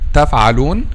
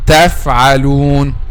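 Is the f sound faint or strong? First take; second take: faint; strong. First: The f has only a slight, light lip contact. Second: The f has firm teeth-on-lip contact. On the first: The speaker calls it wrong. "make this touching slight touching, this is a wrong pronunciation" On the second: The speaker calls it right. "You have to make this touching like this"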